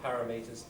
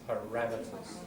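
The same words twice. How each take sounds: First: The stress is not on the second syllable. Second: The stress is on the second syllable. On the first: The speaker calls it wrong. "Not parameters" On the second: The speaker calls it right. "Second syllable gets the stress"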